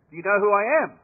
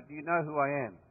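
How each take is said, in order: First: Raised, louder indignant demand; pompous British major. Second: Said in the usual way. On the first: Retold or imitated. Pompous major demanding the Aussies salute him, indignant. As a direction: puff up and demand your due. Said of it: "he looks back and goes". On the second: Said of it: "it's a very poignant question".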